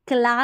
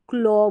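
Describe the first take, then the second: First: The vowel is an open 'ah' sound. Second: The vowel is a rounded 'aw' sound. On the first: The speaker calls it wrong. "क्ला नहीं बोलेंगे" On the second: The speaker calls it right. "इसको क्लॉ बोलेंगे"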